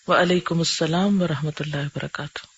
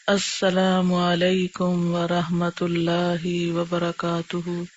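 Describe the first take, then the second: First: The words are said at a plain, normal pace. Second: The words are stretched out slowly, like recitation.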